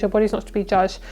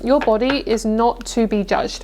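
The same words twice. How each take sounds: First: Fast, brisk repeat of the message; quick restatement. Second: Slow, each word weighed out; slow, deliberate message. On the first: Reader briskly restates the message to viewers, fast. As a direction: rattle it off as a quick recap. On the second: Reader slowly delivers the message to viewers, deliberately paced. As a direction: lay it down slowly so it sinks in. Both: Shown as a demonstration. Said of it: "What I'm hearing is".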